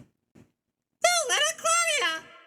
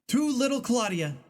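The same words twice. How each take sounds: First: It is said in a put-on character voice. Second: It is read in the speaker's normal voice.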